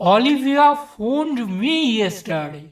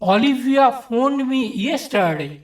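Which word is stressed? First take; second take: me; yesterday. First: The stress falls on the word me. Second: The stress falls on the word yesterday. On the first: The call was to me, not someone else. "তৃতীয় ক্ষেত্রে আমাকে এই শব্দটির উপর জোর দেওয়া হয়েছে।" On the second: The point is when the call happened. "চতুর্থ ক্ষেত্রে কখন ফোন করেছিল সেই সময়ের উপর জোর দেওয়া হয়েছে।"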